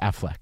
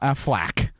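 First: The last syllable is said like 'fleck'. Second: The last syllable is said like 'flack'. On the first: The speaker calls it right. "It's Affleck. Like a fleck of" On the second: The speaker calls it wrong. "It's not Affleck"

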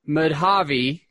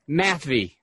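First: The name is said with three syllables. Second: The name is said as 'math' plus 'vee'. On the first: The speaker calls it wrong. "We're not going to say Madhavi" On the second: The speaker calls it right. "take the subject math and the letter V and just put it together"

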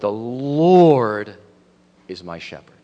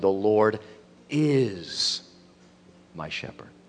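First: The stress is on "Lord". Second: The stress is on "is".

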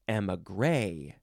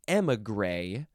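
First: The stress is on the last syllable. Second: The stress is on the first syllable. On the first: "or the last syllable" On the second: "Emphasize the first"

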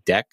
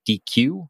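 First: It is said as one syllable, deck. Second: It is said as two syllables, dee-queue. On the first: "it's meant to be pronounced DEC, like DECK" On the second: "some people probably look at it and pronounce it DQ"

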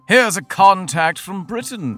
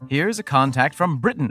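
First: It is said in a put-on accent. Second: It is said in his normal accent.

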